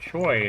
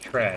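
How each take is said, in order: First: The name is said like 'Choy', as spelled. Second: The name is said like 'Tre', not 'Choy'. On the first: This is how the spelling reads in America. The speaker calls it wrong. "is what it looks like here in America" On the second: This is the pronunciation found by checking. The speaker calls it right. "is pronounced Tre"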